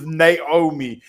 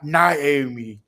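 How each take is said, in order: First: The name is said without an 'eye' sound. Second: The name is said with an 'eye' sound. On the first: The speaker calls it right. "her name is Naomi" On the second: The speaker calls it wrong. "There's no I in her name"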